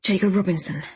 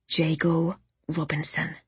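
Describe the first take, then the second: First: Mildly stunned repeat; a bit floored. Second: Deliberate naming. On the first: Narrator repeats Orla's words, a bit floored. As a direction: echo the name, slightly taken aback. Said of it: "I repeated, a bit floored". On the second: Orla gives a name to remember. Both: A narrator's reading.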